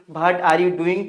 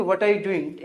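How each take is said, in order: First: What said as bhat with breathy bh; the common mistake, bhat are you doing; wrong bhat pronunciation. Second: What with a clear w sound; the right way, clean w; correct what. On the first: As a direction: start What with bh like Hindi भ. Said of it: "तो कुछ लोग बोलते हैं कि". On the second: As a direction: say What with rounded w, no bh. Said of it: "क्या बोलेंगे". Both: Shown as a demonstration.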